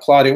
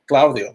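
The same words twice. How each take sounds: First: The name is pronounced with English sounds. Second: The name is pronounced with Spanish sounds. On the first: This is the usual anglicized way people say the name. "not Claudio" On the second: The person took care to say the name as its owner would. "like uh, in, in Spanish"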